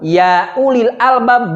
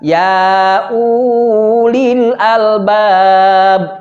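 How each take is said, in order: First: The vowel of ulil is kept short. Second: The vowel of ulil is held long. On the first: The speaker calls it right. "atau ya ulil albab" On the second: The speaker calls it wrong. "dibaca ya ulil albab ... itu tidak sesuai dengan kaidah ilmu tajwid"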